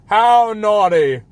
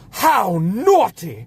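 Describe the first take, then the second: First: The line is delivered flatly, without feeling. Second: The line is delivered with lively expression. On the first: The character does not care about what she says. The speaker calls it wrong. "It's like she doesn't" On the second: The character cares about what she says. The speaker calls it right. "in the original she's like"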